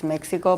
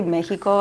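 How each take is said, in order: First: Mexico said English-style, as MEK-si-ko; English pronunciation of Mexico. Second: Mexico said Spanish-style, as MEH-hee-ko; Spanish pronunciation of Mexico. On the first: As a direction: say Mexico with a KS sound for the X. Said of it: "I know it's Mexico". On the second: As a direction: say Mexico with an H sound for the X. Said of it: "here with our Spanish accent, we call it Mexico". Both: Shown as a demonstration.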